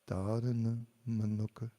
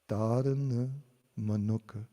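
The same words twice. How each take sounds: First: The phrase is said softly and quietly. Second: The phrase is said at normal loudness. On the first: "then I'll say it softly" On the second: "I'll say a phrase"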